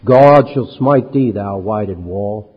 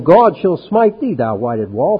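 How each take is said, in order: First: Slow, weighty mock threat; threatening quote. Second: GOD stressed high, a little slowed; emphatic scripture quote; read with emphasis. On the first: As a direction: let the threat land slowly. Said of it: "he threatened". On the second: Acted. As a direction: lean on God, then drop to thou whited wall. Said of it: "Then Paul said unto him".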